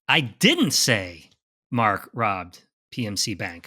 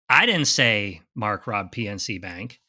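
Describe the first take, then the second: First: The stress falls on the word didn't. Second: The stress falls on the word Mark. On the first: Someone claimed the speaker said it. "Starts with an assumption that someone said I did say it" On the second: Someone else, not Mark, robbed the bank. "That was you, Craig. You robbed the bank, right?"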